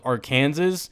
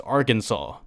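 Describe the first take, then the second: First: Arkansas said as ar-KAN-zus; pronounced as spelled. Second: Arkansas said as AR-kin-saw; standard pronunciation. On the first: Vlogger contrasting spelling with sound, Arkansas as ar-KAN-zus. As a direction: read Arkansas letter for letter, like Kansas. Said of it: "that's spelled Arkansas". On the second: Vlogger giving the real pronunciation, Arkansas as AR-kin-saw. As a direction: stress the first syllable of Arkansas, end on "saw". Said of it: "but pronounced Arkansas". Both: Shown as a demonstration.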